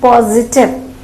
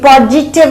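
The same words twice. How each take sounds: First: The middle consonant is a z sound. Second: The middle consonant is not a z sound. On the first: The speaker calls it right. "ज है है ना" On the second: The speaker calls it wrong. "ये पॉजिटिव नहीं है"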